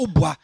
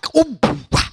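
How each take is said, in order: First: The word is said flatly, without flair. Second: The word is said boldly, with swagger. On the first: The speaker calls it wrong. "No, it's not ubwa" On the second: The speaker calls it right. "You have to say it with swag"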